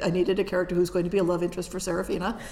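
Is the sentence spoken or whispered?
spoken. The sentence is spoken in a normal voice.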